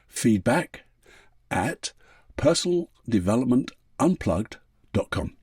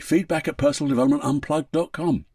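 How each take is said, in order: First: It is said slowly. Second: It is said at normal speed.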